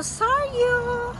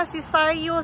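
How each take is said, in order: First: Saryu! sung out high and bright; Saryu! chimed high, announcer-style; name called out high. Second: Said in the usual way. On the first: Shown as a demonstration. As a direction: call out Saryu! up high like a jingle.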